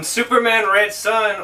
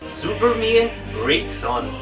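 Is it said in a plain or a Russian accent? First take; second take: plain; Russian. First: It is said in a plain English accent. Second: It is said in a Russian accent.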